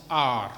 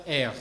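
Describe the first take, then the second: First: R said the English way, a long "ah"; R as a drawn-out open "ah"; English letter name. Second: R said the French way, "air"; R with an open eh vowel; French letter name. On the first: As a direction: give R its English name, "aar". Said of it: "En anglais, elle se prononce R". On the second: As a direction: give R its French name, "erre". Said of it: "En anglais, elle se prononce". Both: Shown as a demonstration.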